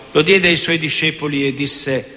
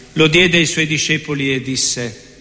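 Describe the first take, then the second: Both takes have the same delivery.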